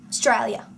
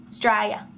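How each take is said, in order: The two takes are said the same way.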